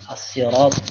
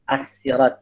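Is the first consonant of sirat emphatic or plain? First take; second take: emphatic; plain. First: The s-sound is emphatic, like sad. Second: The s-sound is plain, like sin. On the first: "Dengan So" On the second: "dibaca dengan Asin, Sa, dengan Sa"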